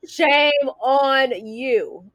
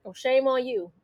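First: "shame on you" stretched very slow, a teasing near-cry; playful slow tsk-tsk at a friend; drawn-out mock scolding. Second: Said in the usual way. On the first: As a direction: drag out "shame" like a fake sob of disapproval.

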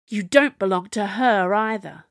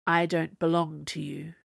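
First: Louder, heated comeback; stormy retort. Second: Lifeless, level delivery; deadened tone. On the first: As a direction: fire it back with rising temper. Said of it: "Camilla's face went stormy". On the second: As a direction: refuse them with no feeling left in the voice. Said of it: "in a deadened tone of voice". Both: A narrator's reading.

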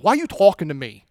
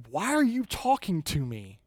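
First: Quick New Jersey back-talk; New Jersey accent. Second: Puzzled, breaking an awkward silence; wary Samaritan woman. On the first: Samaritan woman talks back to Jesus, sassy New Jersey accent. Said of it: "like, this New Jersey accent". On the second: Samaritan woman answers Jesus after an awkward silence, wary and incredulous. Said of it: "So finally, she says". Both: Acted.

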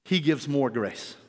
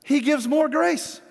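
First: Low, slow and soft, each word of "he gives more grace" set apart; soft slow emphasis. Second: Higher and slow, "grace" lifted at the end; emphatic answer. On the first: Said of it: "Therefore, it says". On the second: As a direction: proclaim "He gives more grace" slowly, rising on "grace". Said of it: "What does James say?". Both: Shown as a demonstration.

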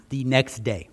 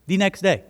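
First: Said in the usual way. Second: Repite "The next day" con énfasis en "day", más alto; stress on day. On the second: Shown as a demonstration.

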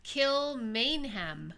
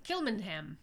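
First: Kilmainham very slowly, with a full MAIN syllable; drawn-out pronunciation. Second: Kilmainham quicker, middle squashed to "mun"; reduced pronunciation. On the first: Correcting co-host on the jail's name, drawn-out Kilmainham with full MAIN. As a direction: stretch Kilmainham out, sounding "mayn" clearly. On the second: Trying the jail's name another way, Kilmainham with reduced middle. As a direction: say Kilmainham compactly as "KIL-mun-um". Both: Shown as a demonstration.

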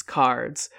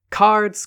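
First: Said in the usual way. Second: Higher, louder eager call of Cards; eager shout. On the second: Acted. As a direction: call out Cards with excitement, rising high. Men call for the card game.

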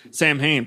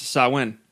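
First: "Sam Hain" said as two English words, SAM-hayn; pronounced as spelt. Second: "Samhain" said as SAH-win; correct Gaelic pronunciation. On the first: Host contrasting spelling with speech, says SAM-hayn as written. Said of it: "I'm saying it like it looks". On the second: Host reading out the given pronunciation, SAH-win. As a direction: say "Samhain" with a w in place of the m. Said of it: "pronounced Samhain". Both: Shown as a demonstration.

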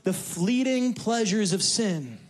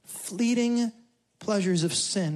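First: The fleeting pleasures of sin said slowly, leaning on fleeting; preacher lingering on fleeting pleasures of sin; slow emphatic phrase. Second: Fleeting set apart, then pleasures of sin; echoing fleeting pleasures of sin for the church; repeated with pauses. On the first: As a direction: draw out fleeting, let it land. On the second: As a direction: pause after Fleeting, let it hang. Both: Shown as a demonstration.

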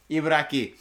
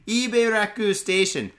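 First: "Ibaraki" repeated with a final i; "Ibaraki" said as ee-bah-RAH-kee after correction; corrected name. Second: "Ibaraku" read with a final u; stumbling over "Ibaraku" as ee-bah-RAH-koo; wrong name. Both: Real, not acted.

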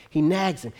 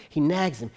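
No difference in how they are said.

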